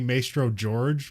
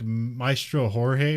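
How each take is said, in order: First: The name is said with an American English pronunciation. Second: The name is said with a non-English pronunciation. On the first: "if it's just using American English" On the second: "it's supposed to be like"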